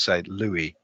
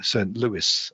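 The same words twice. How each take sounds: First: The name is said in a non-American way. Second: The name is said the American way.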